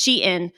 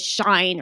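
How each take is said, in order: First: It is pronounced like she followed by in. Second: It is pronounced like the word shine. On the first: The speaker calls it right. "or it's Shein" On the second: The speaker calls it wrong. "everyone says Shine"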